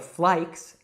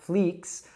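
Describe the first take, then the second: First: The vowel is an eye sound. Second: The vowel is a long ee sound. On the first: "or flikes" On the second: "it's not fleeks"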